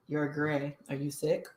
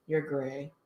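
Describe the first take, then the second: First: Deadpan teacher, a little softer; teacher quietly mocked as bone-dry. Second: Deadpan, softer teacher line; mild imitation of a dry chemistry teacher. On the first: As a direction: state it without any concern. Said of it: "Was that really his tone?". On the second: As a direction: say it bored and matter-of-fact. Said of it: "this is how he spoke 'cause he was very dry".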